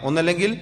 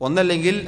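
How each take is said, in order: The two takes are said the same way.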